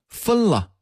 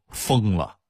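First: It is said in standard Mandarin pronunciation. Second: It is said in a Datong dialect accent.

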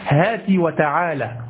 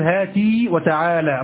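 First: The first word ends in a short vowel. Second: The first word ends in a long vowel. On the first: The speaker calls it right. "بكسر التاء فقط" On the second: The speaker calls it wrong. "لا تقول هاتي وتعالى"

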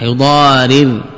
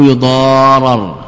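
First: The vowel before the final r is i. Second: The vowel before the final r is a. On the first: The writer is the one causing harm. "بكسر الراء" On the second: The writer is the one being harmed. "أو بفتح"

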